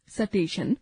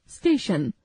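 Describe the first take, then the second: First: स्टेशन said as "सटेशन" with a vowel between s and t; wrong pronunciation. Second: स्टेशन with a clean st cluster; correct pronunciation. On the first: Teacher demonstrates the wrong form "सटेशन". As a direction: break the st cluster in स्टेशन with a short a. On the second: Teacher models the correct स्टेशन with no extra vowel. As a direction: say स्टेशन with s and t joined. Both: Shown as a demonstration. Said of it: "अशुद्ध उच्चारण, शुद्ध उच्चारण".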